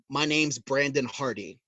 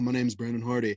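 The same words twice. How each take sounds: First: It is said firmly and with confidence. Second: It is said timidly and without confidence. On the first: The speaker calls it right. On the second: The speaker calls it wrong.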